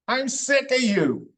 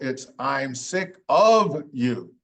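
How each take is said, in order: First: The words are reduced and run together. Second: Each word is said fully and separately. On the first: "We kind of roll it as an A" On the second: "No, it's"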